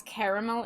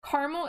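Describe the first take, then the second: First: CARAMEL said as "care-a-mel"; three full syllables on CARAMEL; CARAMEL opening with "care"; candy pronunciation. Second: CARAMEL said as "car-mel"; two syllables on CARAMEL, opening with "car"; sauce pronunciation. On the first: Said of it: "caramel is the candy". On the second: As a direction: squeeze CARAMEL down to "car-mul". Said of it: "Caramel is a sauce". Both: Shown as a demonstration.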